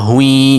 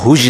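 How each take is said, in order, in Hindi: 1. अक्षर के अंत में एक न की आवाज़ जोड़ी जाती है। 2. अक्षर बिना न की आवाज़ के खत्म होता है। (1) "बल्कि हम पढ़ेंगे हा दो पेश या हुई" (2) "हा दो पेश या हुज नहीं पढ़ेंगे"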